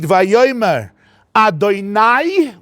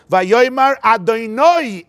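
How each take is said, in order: First: The last syllable has the patach vowel. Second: The last syllable has the kametz vowel. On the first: It addresses several human masters. "which means my masters in plural" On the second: It is a name of God. "Or you do it with a kametz, not with a patach"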